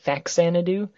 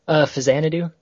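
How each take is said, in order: First: The first syllable sounds like 'fax'. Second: The first syllable sounds like 'fiz'. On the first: This is the speaker's habitual pronunciation. "I've always pronounced it" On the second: This is the official pronunciation. "apparently that's how it's actually pronounced"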